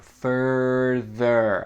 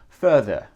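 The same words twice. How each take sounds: First: The R sounds are strong and clearly pronounced. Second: The R sounds are soft and weakly pronounced.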